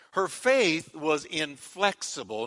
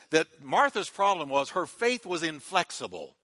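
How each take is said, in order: First: "Her faith was inflexible." said slowly, weight on "faith"; slow emphatic repeat. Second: Said in the usual way. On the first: Real, not acted.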